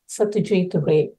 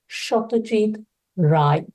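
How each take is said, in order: First: The name is said with a non-Bengali pronunciation. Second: The name is said with a Bengali pronunciation. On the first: The speaker sounds like a non-Bengali speaker. "the non Bengali speaker is likely to pronounce it as" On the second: The speaker sounds like a native Bengali speaker. "the native Bengali speaker is likely to pronounce it as"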